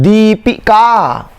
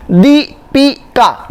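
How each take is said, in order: First: दीपिका joined, with long दी and long का; drawn-out vowels. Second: दीपिका chopped into three separate beats; broken into syllables. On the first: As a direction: stretch दी and का in दीपिका, no breaks. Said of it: "हम लोग बोल रहे हैं". (दीपिका में 'दी' और 'का' खींचकर) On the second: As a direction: say दीपिका very slowly, pausing after दी and पि. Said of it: "हम लोग ये तो बोल ही नहीं रहे". (दीपिका के अक्षर रुक-रुक कर) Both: Shown as a demonstration.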